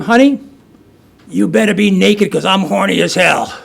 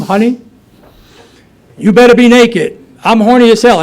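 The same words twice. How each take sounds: First: Calling out from the door, half-shouted; mock yell to wake the wife; a hammed-up holler on coming home; retold scream. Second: Shouted, higher and louder, Honey stretched up; full hammed-up yell on coming home; loud scream. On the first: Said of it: "And then I scream". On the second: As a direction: bellow it through the house like a drunk husband. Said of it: "I scream".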